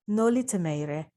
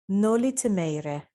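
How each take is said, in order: No difference in how they are said.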